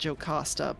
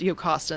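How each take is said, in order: First: The name begins with a J sound. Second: The name begins with a Y sound. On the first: "Some people do pronounce it Jocasta" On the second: "if it's actually pronounced Yocasta in this instance"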